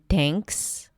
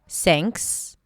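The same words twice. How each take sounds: First: It starts with a hard, ordinary T sound. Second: It starts with a hissing S sound. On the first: It sounds like a different word. "Sometimes it's more of a hard D and T" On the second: It makes the word less clear. "people substitute it with an S"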